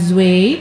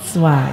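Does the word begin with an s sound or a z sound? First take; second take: z sound; s sound. First: The word begins with a buzzing z sound. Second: The word begins with a hissing s sound. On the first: The speaker calls it wrong. "bukan zway" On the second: The speaker calls it right. "tapi swai"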